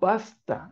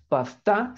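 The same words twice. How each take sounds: First: The stress is on the first syllable. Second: The stress is on the second syllable. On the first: The speaker calls it right. "sino pasta" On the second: The speaker calls it wrong. "no hay palabras agudas, no, entonces no es pasta"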